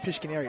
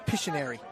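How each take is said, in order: First: The middle has a k sound after sh. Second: The middle has no k sound after sh. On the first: The speaker calls it wrong. "we're pronouncing Pishkineri wrong. I keep saying Pishkineri" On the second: The speaker calls it right. "it's Pishineri"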